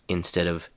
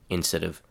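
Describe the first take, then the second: Both takes have the same delivery.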